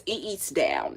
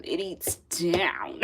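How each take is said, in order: First: Said in the usual way. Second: "down" stretched slow and whispery; drawn-out emphasis on down. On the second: Real, not acted. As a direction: draw out "down" in a playful, whispery voice. Repeats praise phrase with playful emphasis.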